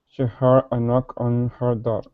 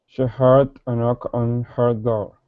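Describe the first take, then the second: Both takes have the same delivery.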